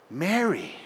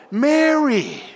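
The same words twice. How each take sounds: First: Quiet tender Mary, falling softly at the end; soft calling of a name. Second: The name grows to a call. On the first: Pastor voicing Jesus gently calling to grieving Mary, quiet. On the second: Pastor showing Jesus calling Mary by name, rising call. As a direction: ring out Mary higher, a full call that falls at the end. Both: Shown as a demonstration. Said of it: "Do you see how it grew".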